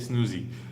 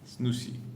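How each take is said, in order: First: The consonant in the name is voiced like Z. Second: The consonant in the name is unvoiced like S. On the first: The speaker calls it wrong. "they like to turn the last the last uh, S to Z" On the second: The speaker calls it right. "pronounce the first like S and the second like S"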